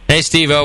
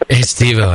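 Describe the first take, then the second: First: It is said in his normal voice. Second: It is said in a low seductive voice.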